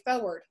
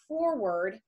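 First: Said in a Southern accent with no r. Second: Said slowly and carefully with the r pronounced. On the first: The speaker calls it wrong. "as a Georgia girl, I want to say forward" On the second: The speaker calls it right. "I always have to say that slowly"

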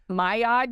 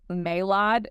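First: The name is pronounced with French-style sounds. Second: The name is pronounced with English-style sounds. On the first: The speaker calls it right. "you know how to actually pronounce it" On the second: The speaker calls it wrong. "always thought it's like Maillard"

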